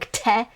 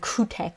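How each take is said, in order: First: The u vowel after k is dropped. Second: The u vowel after k is clearly pronounced. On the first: This is how native speakers say it. The speaker calls it right. "I'm just saying kte" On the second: This is careful, enunciated speech. The speaker calls it wrong. "You're not saying kute"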